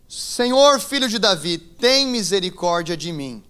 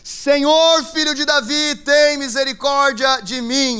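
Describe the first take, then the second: First: It is read in a calm, ordinary voice. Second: It is said loudly, like a desperate shout.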